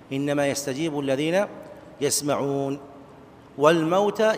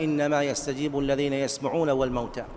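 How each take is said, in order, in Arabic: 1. يقف بعد 'yasma'un' وقبل 'wal-mawta'. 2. يستمر الكلام ولا يقف إلا بعد 'wal-mawta'.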